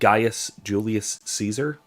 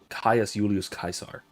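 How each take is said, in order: First: The name begins with a G sound. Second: The name begins with a K sound. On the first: "you know that guy" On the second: "was the actual pronunciation in classical Latin"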